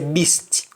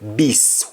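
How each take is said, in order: First: The word ends with a clear T sound. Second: The word ends without a T sound. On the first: This is the standard English form. "In English we say beast. We pronounce the T at the end" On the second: This is the Jamaican form. "But in Jamaican we simply say beast"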